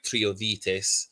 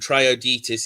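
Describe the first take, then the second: First: It is pronounced closer to the original language. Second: It is pronounced the usual English way. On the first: This is closer to how it was really said. The speaker calls it right. "but it's more like" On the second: This is how English speakers usually say it. The speaker calls it wrong. "is what we would say"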